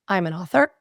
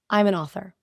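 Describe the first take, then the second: First: The voice rises at the end like a question. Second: The voice falls at the end like a statement. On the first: The speaker sounds unsure and invites scrutiny. "Then they had them add question inflections to those statements" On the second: The speaker sounds sure of herself. "They had people listen to statements"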